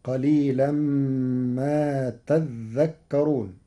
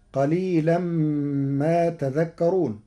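First: تذكرون with dhal held, "tadh-dhakkarun"; slow verse, lean on the doubled dhal of تذكرون. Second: تذكرون with single light dhal, "tadhakkarun"; slow verse, تذكرون as ta-dhak-karun; first reading of تذكرون. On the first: Teacher shows Warsh's reading, تذكرون as tadhdhakkarun. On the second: Teacher recites before Warsh's change, تذكرون with a single dhal. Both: Shown as a demonstration. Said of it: "بتشديد الذال".

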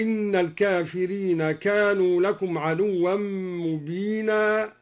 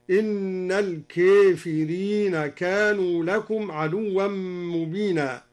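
First: Said in the usual way. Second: الكافرين with the long a leaning to e, slow chant; imala on الكافرين. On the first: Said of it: "قوله تعالى". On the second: Shown as a demonstration. Teacher demonstrating Duri's reading: الكافرين with imala. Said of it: "أمال الكافرين".

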